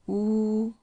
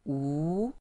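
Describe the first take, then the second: First: The pitch stays high and level. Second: The pitch rises from mid to high. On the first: "high flat one" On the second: "second tone going up"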